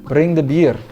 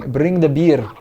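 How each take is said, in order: Both takes have the same delivery.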